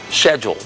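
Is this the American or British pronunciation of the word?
British. The word is said the British way. "the way it is in England"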